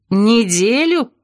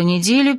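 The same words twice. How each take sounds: First: Drawn-out, higher indignant echo. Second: Said in the usual way. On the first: A narrator's reading. Narrator balks at a week of singing, indignant. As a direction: repeat НЕДЕЛЮ slowly in disbelief, pitch up. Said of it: "возмутилась я".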